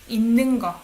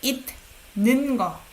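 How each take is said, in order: First: The first syllable ends in an n sound. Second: The first syllable ends in a t sound. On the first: The speaker calls it right. "It sounds more like natural, 있는, rather than it" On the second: The speaker calls it wrong. "You don't say 있는 거"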